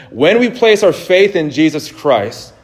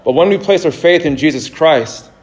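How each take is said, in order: First: Slow, deliberate weight on "When we place our faith"; emphatic restatement. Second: Said in the usual way. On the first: Real, not acted. Preacher cueing the congregation to say amen, slow and emphatic on "faith in Jesus Christ". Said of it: "Okay, here we go". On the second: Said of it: "this is when we could say amen".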